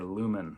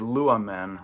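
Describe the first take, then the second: First: The ending follows the stem with no vowel. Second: A connecting vowel is heard before the ending. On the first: The speaker calls it wrong. "rather than" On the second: The speaker calls it right. "they think it sounds better"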